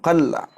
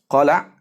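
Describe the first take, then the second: First: The L is followed by no vowel. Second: The L is followed by the vowel a. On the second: "dibaca dengan fathah"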